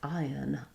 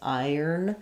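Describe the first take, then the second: First: The word ends with a plain uh vowel. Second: The word ends with an R-colored vowel.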